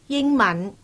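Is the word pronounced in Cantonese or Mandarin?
Cantonese. The word is pronounced the Cantonese way. "广东话同普通话日常用语对比"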